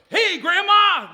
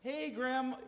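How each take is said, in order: First: It is said loudly with high energy. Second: It is said softly and calmly.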